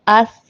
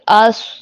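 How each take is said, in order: First: The consonant sounds thin and light. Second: The consonant sounds heavy and full. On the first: The speaker calls it wrong. "हम इसको अस नहीं पढ़ सकते" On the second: The speaker calls it right. "पुर पढ़ेंगे"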